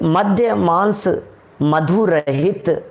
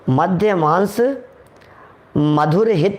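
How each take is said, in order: First: The break falls after madhu, before rahit. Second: The break falls after madhur, before hit. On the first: Free of liquor, meat and honey. The speaker calls it right. "मधु रहित, मधु माने शहद" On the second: Liquor and meat are sweet and beneficial. The speaker calls it wrong. "मधुर हित नहीं है ये"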